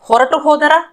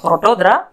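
First: The two words are said separately with the final u. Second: The words are joined and the final u is dropped.

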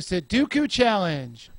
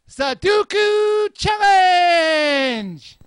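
First: The title is said at a calm, normal volume. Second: The title is yelled very loudly and excitedly. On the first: The speaker calls it wrong. "I said that wrong" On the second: The speaker calls it right. "you have to yell it to the extreme!"

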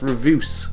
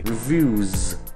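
First: The word ends with a hissing s sound. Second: The word ends with a buzzing z sound. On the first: The speaker calls it wrong. "not reviews" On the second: The speaker calls it right. "you pronounce reviews with a Z anyway"

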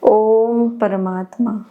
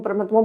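First: The phrase is said slowly and calmly. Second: The phrase is rattled off quickly. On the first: The words are said with sincere feeling and faith. The speaker calls it right. "શુદ્ધ ભાવથી બોલવાનું છે" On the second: The words are said just for the sake of saying them. The speaker calls it wrong. "ફટાફટ બોલશો ... એવું નહીં"

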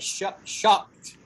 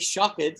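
First: The -ed ending is a short t sound. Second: The -ed ending is said as an extra syllable. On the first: The speaker calls it right. "we say shocked" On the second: The speaker calls it wrong. "we don't say shocked"

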